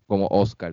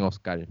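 First: Oscar stressed on the O, ÓS-car; stress on first syllable. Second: Oscar stressed as os-CAR; stress on last syllable. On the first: Quoting Spanish speakers he has heard, Oscar stressed on the O. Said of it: "lo dicen en español como Oscar". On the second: Showing what those speakers don't say, Oscar stressed on CAR. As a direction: let the stress fall on the end of Oscar. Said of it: "no lo dicen Oscar". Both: Shown as a demonstration.

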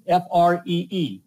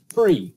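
First: F R E E, each letter said apart and slowly; spelled out letter by letter. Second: Said in the usual way. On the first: Shown as a demonstration. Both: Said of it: "simply type free in the comments".

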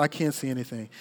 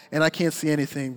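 First: Low, much softer, sinking; quiet helpless repeat; hushed despair. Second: Said in the usual way. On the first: Retold or imitated. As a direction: let it fall away into a hush.

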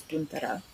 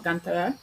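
First: "guntara" with the rounded vowel of "put". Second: "gantara" with the vowel of "but"; wrong first vowel. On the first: Teacher correcting the word, "guntara" with a "put" vowel. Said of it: "or the vowel in put". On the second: Teacher showing what to avoid, "gantara" with a "but" vowel. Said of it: "so it's not gantara". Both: Shown as a demonstration.

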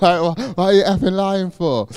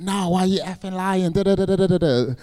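First: Higher and louder, laughing through the mock accusation; laughing imitation. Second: Higher mock-incredulous friends; mocking disbelieving lads. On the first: Re-quoting the friends' accusation, laughing at it. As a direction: repeat their line while cracking up. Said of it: "literally, that's what they said". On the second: Imitating his friends accusing him of lying, mock-incredulous. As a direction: mimic the friends scoffing in disbelief.

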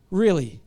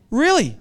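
First: Really? lower and softer, musing to himself; quieter really. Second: Incredulous really. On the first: Preacher musing on anxious Christians, soft Really?. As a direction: let Really? sink in, quietly. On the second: Preacher challenging the congregation, pointed Really?. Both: Shown as a demonstration.

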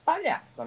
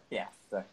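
First: High-pitched, teasing "Palhaça"; light mocking squeal on "Palhaça"; playful high name-calling. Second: Low, soft "Palhaça"; muttered low tease on "Palhaça"; playful low name-calling. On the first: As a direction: toss out "Palhaça" high and falling. Playful name-calling, first take. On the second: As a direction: drop "Palhaça" down deep and quiet. Same word, contrasting low take. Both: Shown as a demonstration.

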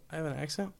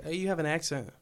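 First: Softer echo, ACCENT rising as a question; puzzled question, lifting the end on "accent". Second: Said in the usual way. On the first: Retold or imitated. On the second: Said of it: "people say, like".

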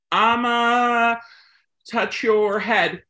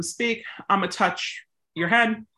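First: Said in the usual way. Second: Right way. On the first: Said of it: "this is the wrong way to do it". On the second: Shown as a demonstration. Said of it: "you can have that breath pause between them".

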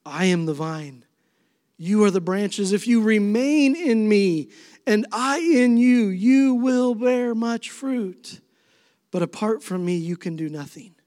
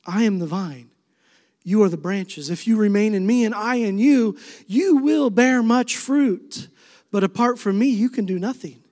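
First: Preaching scripture. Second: Rising, slowing preacher's scripture read; preaching scripture. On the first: Pastor repeats Jesus' vine verse to the congregation, building then hushed. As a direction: swell on the fruit and fall away. Second reading of same verse. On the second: Pastor proclaims Jesus' words to the congregation, rising preaching. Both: Acted.

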